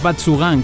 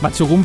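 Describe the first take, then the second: First: The last syllable ends with an 'an' sound. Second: The last syllable ends with an 'oon' sound. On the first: The speaker calls it wrong. "no digáis Batsugan como nosotros" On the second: The speaker calls it right. "Batsugun pronunciado así"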